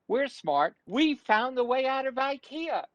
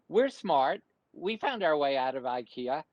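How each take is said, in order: First: It is said jokily, trying to be funny. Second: It is said plainly, like normal conversation.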